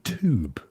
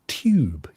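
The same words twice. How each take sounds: First: It has no y-glide before the vowel, 'toob'. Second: It has a y-glide before the vowel, 'tyoob'. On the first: "you guys say tube. So you pronounce it T O O B" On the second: "we say tube, tube, you see"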